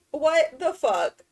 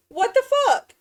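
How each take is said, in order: First: Drawn-out, weary disbelief; slow, stretched exasperated groan; slow exasperation. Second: High, loud outraged yell; outraged shriek. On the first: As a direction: drag it out slowly, a bit louder. Repeating the outburst. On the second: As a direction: shriek it much higher and louder. Villager came back again. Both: Real, not acted.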